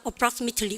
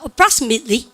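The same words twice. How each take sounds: First: British accent, the t sound fully pronounced. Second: American accent, the t sound softened or dropped. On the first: "브리티시를 뭡니까?" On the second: "완전 미국한 아이들을 뭐 합니까?"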